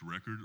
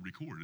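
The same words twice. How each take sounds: First: "record" said as noun, stress on first syllable REC-ord. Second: "record" said as verb, stress on second syllable re-CORD. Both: Shown as a demonstration. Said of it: "how to pronounce it".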